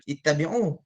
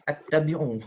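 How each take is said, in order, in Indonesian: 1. Kata ini dimulai dengan vokal i. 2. Kata ini dimulai dengan vokal a. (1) "Tahulah ittabi'u" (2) "terdengar juga orang tersasul baca attabi'u"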